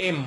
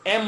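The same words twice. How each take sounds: First: এম as "em" with a long hummed m; correct pronunciation. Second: এম with a short, open "ae" vowel; wrong pronunciation. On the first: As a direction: hold the final m of এম. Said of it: "আমরা বলবো এম". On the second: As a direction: say এম as a quick "aem". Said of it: "এম বলবো না". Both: Shown as a demonstration.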